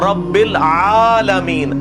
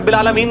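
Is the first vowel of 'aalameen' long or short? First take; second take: long; short. First: The first vowel of 'aalameen' is long. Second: The first vowel of 'aalameen' is short. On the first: The speaker calls it right. "ये आ जो है ये लंबा है" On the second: The speaker calls it wrong. "ये अल्हम्दुलिल्लाह रब्बिल आलमीन नहीं है"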